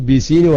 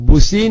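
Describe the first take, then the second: First: The first vowel sounds like 'i', as in 'bit'. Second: The first vowel sounds like 'oo', as spelled. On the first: This is how the word is actually read. The speaker calls it right. "ബിസീൻ വായിക്കണം" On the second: This is how the word is written. The speaker calls it wrong. "ബുസീൻ എഴുതിയിട്ട്"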